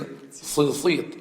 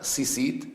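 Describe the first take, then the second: First: It starts with an emphatic s sound. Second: It starts with a plain s sound. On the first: The speaker calls it right. "the sa should be emphasized like in Arabic" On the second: The speaker calls it wrong. "the right pronunciation is not sisit"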